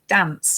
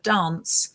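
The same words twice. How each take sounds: First: It is said in a northern English accent. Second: It is said in a non-northern English accent. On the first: "I'm from the north of of the country, and I say certain things like dance" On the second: "instead of dance"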